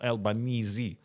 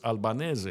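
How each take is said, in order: First: The name is said with Australian English pronunciation. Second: The name is said with Italian pronunciation. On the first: The speaker calls it wrong. "It's not Albanese. It's incorrect" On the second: The speaker calls it right. "the Italian word's Albanese"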